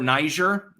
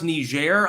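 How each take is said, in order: First: The name is pronounced the English way. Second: The name is pronounced the French way.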